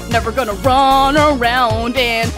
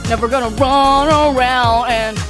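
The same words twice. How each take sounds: The two takes are said the same way.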